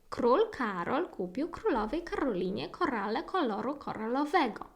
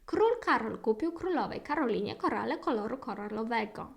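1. Речення вимовляють у швидкому темпі. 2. Речення вимовляють ще швидшим темпом. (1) "I dawajcie jeszcze raz szybciej" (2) "Może jeszcze jeden рівень szybkości? Ostatni"

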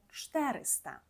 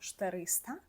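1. Наголос на першому складі. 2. Наголос на другому складі. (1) "правильно говоримо 400" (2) "ми не кажемо 400"

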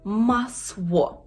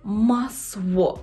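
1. Приголосний — звук w. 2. Приголосний — звук w.

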